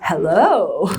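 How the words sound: The pitch rises and then falls. "which is the what's called the rise fall"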